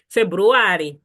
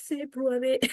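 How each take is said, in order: First: "February" as "Feburuwari", long stressed A, louder; emphatic Chitumbuka pronunciation. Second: Mock English "February", higher and softer; non-Chitumbuka pronunciation. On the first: Teacher models month name for learners, emphatic Chitumbuka pronunciation. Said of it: "With a little bit of emphasis". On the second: Teacher shows learners the wrong way, mock non-Chitumbuka pronunciation. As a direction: say "February" in a light put-on foreign voice. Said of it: "that's not Chitumbuka". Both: Shown as a demonstration.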